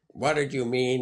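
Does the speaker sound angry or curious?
angry. The question sounds sharp and angry. The speaker is accusing the other person. The speaker calls it wrong. "And you're kind of angry"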